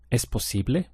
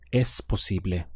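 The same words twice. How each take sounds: First: It is said with question intonation. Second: It is said with statement intonation. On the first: Is it possible? "But question" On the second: It is possible.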